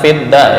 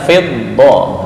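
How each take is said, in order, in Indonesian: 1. Kata ini diakhiri dengan vokal 'a' yang ringan dan biasa. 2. Kata ini diakhiri dengan vokal 'o' yang lebih gelap dan membulat. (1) "bukan fidda" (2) "Tinggal dot bukan fidda ya, fiddo"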